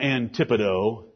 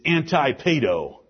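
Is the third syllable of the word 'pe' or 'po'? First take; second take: po; pe. First: The third syllable has a 'po' sound. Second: The third syllable has a 'pe' sound. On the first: The speaker calls it wrong. "I'm playing with your minds by mispronouncing the word. It's not Antipodo" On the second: The speaker calls it right. "It's Antipedo"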